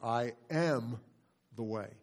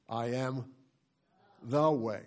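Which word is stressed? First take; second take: am; the. First: The stress falls on "am". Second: The stress falls on "the".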